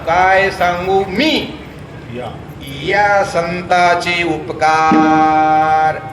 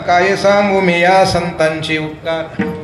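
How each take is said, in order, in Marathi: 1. 'mi' नंतर थांबा येतो; 'ya' वर जोर दिला जातो. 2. 'mi' आणि 'ya' मध्ये खंड न पडता एकत्र म्हटले जातात. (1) "तोड करताव, या शब्दावर जोर द्यायचा" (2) "गडबडीमध्ये काही लोक काय म्हणतात"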